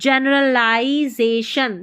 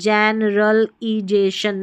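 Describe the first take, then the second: First: The syllable after L sounds like 'lie'. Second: The syllable after L sounds like 'lee'. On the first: The speaker calls it right. "इसको लाई पढ़ना, ली नहीं पढ़ना है" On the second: The speaker calls it wrong. "ई नहीं पढ़ेंगे, generalisation नहीं"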